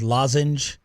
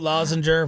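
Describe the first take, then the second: First: The word ends with a plain 'j' sound. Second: The word ends with an added 'er' sound. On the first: The speaker calls it right. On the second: The speaker calls it wrong.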